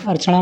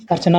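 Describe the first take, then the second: First: अर्चना mispronounced as "archaṇa"; retroflex ṇa. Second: अर्चना ending in a plain "na"; dental na. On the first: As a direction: curl the tongue on the last n of अर्चना. (अर्चना को गलत ढंग से "अर्चणा" बोलें) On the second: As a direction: keep the tongue forward on अर्चना's n. (अर्चना के अंत में सीधा "ना" बोलें) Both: Shown as a demonstration. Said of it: "अड़ा और ना संबंधित".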